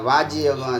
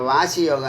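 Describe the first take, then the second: First: The first word has a 'j' sound in the middle. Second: The first word has an 's' sound in the middle. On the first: The speaker calls it right. "வாஜி யோகம் அது" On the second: The speaker calls it wrong. "வாசி யோகம் இல்லை"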